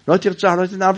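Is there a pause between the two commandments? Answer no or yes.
no. Both phrases run together without a pause. The commandments are read as one verse. "זה הכל פסוק אחד, ... אנחנו לא עושים ככה"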